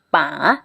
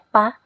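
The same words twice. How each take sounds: First: The syllable is said with tone three. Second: The syllable is said with no tone. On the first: "Kalau dikasih nada tiga" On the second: "Kalau misalnya nggak ada nada ya pa"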